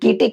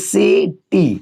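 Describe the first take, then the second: First: The word begins with a k sound. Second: The word begins with an s sound. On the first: The speaker calls it wrong. "इसको कीटी क्यों नहीं पढ़ते" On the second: The speaker calls it right. "इसलिए इसको पढ़ेंगे सी टी"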